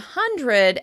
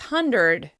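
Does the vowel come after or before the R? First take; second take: after; before. First: The R comes directly after the D sound. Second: A vowel comes before the R sound.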